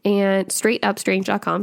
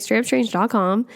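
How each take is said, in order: First: Slow, careful web address; measured repeat for the listener to catch; slower repeat. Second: Quick, run-together web address; brisk and hurried; said fast. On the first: Shown as a demonstration. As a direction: spell it out clearly, word by word. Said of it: "Sorry, I said that really fast". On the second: Real, not acted. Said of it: "I said that really fast".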